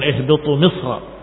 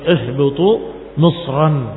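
First: The last word ends without a final n sound. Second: The last word ends with a final n sound. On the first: The speaker calls it wrong. "bukan ihbitu misra" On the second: The speaker calls it right. "misran dengan alif, yang menunjukkan bahwa itu dengan tanwin"

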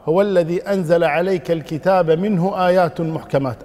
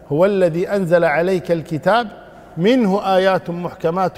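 First: It runs on without a pause after 'al-kitab'. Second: There is a pause right after 'al-kitab'. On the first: 'Minhu' begins the phrase about the clear verses. "وإنما تقرأ" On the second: The first statement ends at 'the Book'. "أو تقف على الكتاب"

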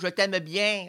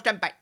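First: The vowels are stretched out and lingering. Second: The words are short and clipped together. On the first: It is said to a romantic partner. "Puis il y a les voyelles que tu rajoutes lorsque c'est ton amoureuse" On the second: It is said to a buddy. "Il y a les apostrophes que tu mets très rapprochées quand c'est un ami"

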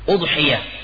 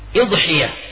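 First: The word begins with an 'u' vowel. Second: The word begins with an 'i' vowel. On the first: "dengan didhamma hamzanya" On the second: "dan juga boleh dikasrah"

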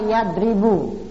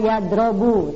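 First: The vowel after the r is i. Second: The vowel after the r is o. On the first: The speaker calls it right. "tapi bacalah yadribu" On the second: The speaker calls it wrong. "Jangan pula dibaca yadrobu"

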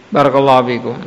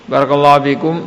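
The two takes are said the same way.

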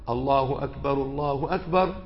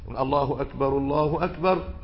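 Both takes have the same delivery.

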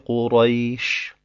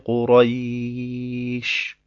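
First: The vowel is held for two counts. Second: The vowel is held for four counts. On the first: "entweder zwei" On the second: "oder vier"

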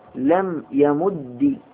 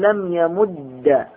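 First: The doubled d ends with an i vowel. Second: The doubled d ends with an a vowel. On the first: "بكسر" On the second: "مع الإدغام أقول لم يمد"

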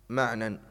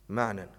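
Both takes have the same delivery.

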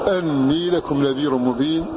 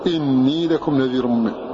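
First: The first word starts with an 'a' vowel. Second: The first word starts with an 'i' vowel. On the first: "قرأ بفتح هذا اللفظ" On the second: "قرأوا بكسر الهمزة"

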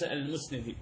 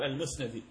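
First: The vowel after the n is i. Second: The vowel after the n is a. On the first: The speaker calls it wrong. "بالكسر وهذا خطأ" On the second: The speaker calls it right. "الصواب المسندي"

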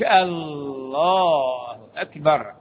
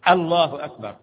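First: The L sound is drawn out and nasalized. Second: The L sound is short and plain. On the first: The speaker calls it wrong. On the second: The speaker calls it right.

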